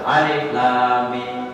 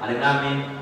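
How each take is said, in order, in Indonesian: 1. Dibacanya pelan dan jelas. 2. Dibacanya sangat cepat dan tidak jelas. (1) "coba baca pelan-pelan" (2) "Kalau saya baca Quran itu begitu"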